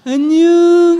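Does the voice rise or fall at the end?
fall. The voice falls at the end.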